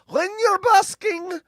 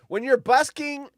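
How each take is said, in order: First: It is read in an imitated Irish accent. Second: It is read in the speaker's ordinary accent.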